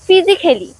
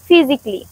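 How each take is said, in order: First: The vowel before -ly is sounded. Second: The vowel before -ly is silent. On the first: The speaker calls it wrong. "আমরা এগুলোর ভুল উচ্চারণ করে থাকি" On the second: The speaker calls it right. "এর উচ্চারণ silent রাখলে হবে"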